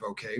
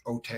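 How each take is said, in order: First: Said in the usual way. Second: "ote" said as oh-tay, with a T; Buckwheat-style mispronunciation. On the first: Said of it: "instead of". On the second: Shown as a demonstration. Showing how the boy says okay, Buckwheat-style "ote" as oh-tay. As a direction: swap the K for a T in "ote". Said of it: "he also has this buckwheat thing".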